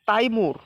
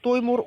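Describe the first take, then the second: First: The first vowel sounds like 'ai'. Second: The first vowel sounds like 'oi'. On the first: The speaker calls it wrong. "তাইমুর বা তৈমুর" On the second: The speaker calls it right. "সঠিক উচ্চারণটা হবে তৈমুর"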